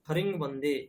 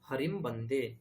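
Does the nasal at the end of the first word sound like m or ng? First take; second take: ng; m. First: The nasal is pronounced like a velar ng. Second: The nasal is pronounced like a lip m. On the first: The speaker calls it wrong. "गकारवत् उच्चारणं कुर्वन्ति" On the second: The speaker calls it right. "अनुस्वारस्य उच्चारणं मकार एव"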